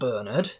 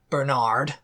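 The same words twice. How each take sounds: First: The name is said with a British accent. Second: The name is said with an American accent.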